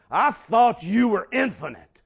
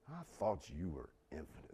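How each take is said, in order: First: Loud, high, scornful outburst; disdainful shout. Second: Low, soft and scornful; quiet disdain. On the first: Habakkuk scornfully shouting his complaint at God. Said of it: "it comes off like this". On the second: Preacher repeating Habakkuk's words to God in quiet disdain. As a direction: let the contempt simmer under the breath. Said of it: "you feel the disdain". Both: Retold or imitated.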